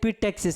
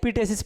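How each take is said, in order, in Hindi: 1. बीच में साफ़ 'ks' की आवाज़ है। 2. बीच में कोई 'ks' की आवाज़ नहीं है। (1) "अगर बिहार बोर्ड वाला पढ़ेगा तो इपिटैक्सिस पढ़ेगा" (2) "अगर सीबीएसई वाला इसी को पढ़ेगा इपिटेसिस"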